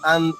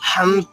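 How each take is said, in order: First: The word starts with a plain vowel. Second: The word starts with a breathy h sound. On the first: The speaker calls it right. "అంత భక్తి నాకు లేదురా అనే అంతే" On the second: The speaker calls it wrong. "హంత కాదు. మీరు కొంచెం ఊపిరి ఎక్కువ తీసుకుంటూ"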